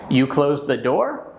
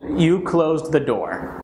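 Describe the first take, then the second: First: The voice rises at the end. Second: The voice falls at the end. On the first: It asks whether they closed the door. "an English speaker will think I'm asking them" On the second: It tells someone what they did. "That's just a sentence. So I'm just telling somebody what they did"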